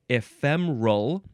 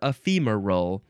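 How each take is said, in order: First: The word is said with three syllables. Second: The word is said with four syllables. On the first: "three syllables" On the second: "with four syllables"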